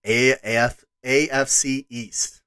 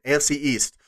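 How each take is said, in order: First: A F C East in a slipped, strange accent; odd accent. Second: Said in the usual way. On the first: Real, not acted. Podcast host previewing next week, an accent slips in. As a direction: let an accent creep into A F C East. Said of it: "Boy, I had an accent there". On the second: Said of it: "That was weird".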